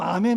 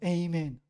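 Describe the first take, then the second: First: The first vowel is an open 'ah' sound. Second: The first vowel is an 'ay' sound. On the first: This is how Koreans say it. "우리처럼 아멘 하기도 하고" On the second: This is how some Americans say it in English. "영어로 에이멘"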